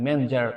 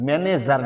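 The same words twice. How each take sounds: First: "ম্যানেজার" squeezed to "men-jar"; correct manager sound. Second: "ম্যানেজার" in three full syllables, "me-ne-zar"; wrong manager sound. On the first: Teacher models manager for learners, "ম্যানেজার" as two-syllable "men-jar". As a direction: skip the middle e in "ম্যানেজার". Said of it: "নাই বললেও চলে". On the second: Teacher shows the mistake, "ম্যানেজার" with full middle vowel. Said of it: "ম্যানেজার না". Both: Shown as a demonstration.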